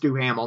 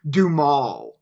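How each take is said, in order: First: The name is said with three syllables. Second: The name is said with two syllables. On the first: The speaker calls it right. "It's Duhamel, not Dumal" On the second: The speaker calls it wrong. "not Dumal"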